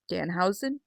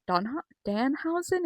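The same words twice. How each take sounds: First: "Danhausen" said with a rising, unsure ending; careful name try. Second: "Donha-" cut off, then "Danhausen" said cleanly; corrected name. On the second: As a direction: start wrong, fix it to "Danhausen". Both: Shown as a demonstration. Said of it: "is that how that's said?".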